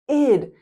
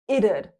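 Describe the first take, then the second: First: The word is said with one syllable. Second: The word is said with two syllables. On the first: "Simply say id" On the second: "There can be two syllables"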